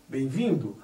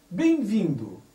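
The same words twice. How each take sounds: First: Said in the usual way. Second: "Bem-vindo" said as "bei-vindo", m dropped into an i glide; wrong pronunciation. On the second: Shown as a demonstration. Teacher to class, demonstrating the sloppy form. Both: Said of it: "O certo é bem-vindo".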